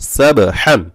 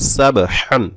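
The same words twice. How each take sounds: Both takes have the same delivery.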